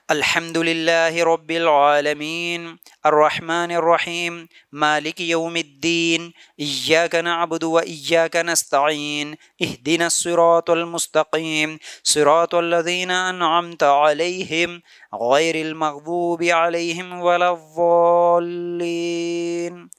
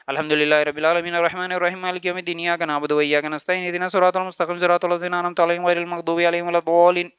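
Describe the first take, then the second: First: It is recited slowly with pauses. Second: It is recited fast without pauses.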